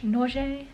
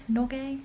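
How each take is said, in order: First: "Norge" said NOR-zhay, soft zh sound with a long ay ending; trying out a pronunciation. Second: "Norge" said NOR-gay with a hard g, rising like a question; unsure questioning pronunciation. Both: Shown as a demonstration. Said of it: "Anyway, it sounded official".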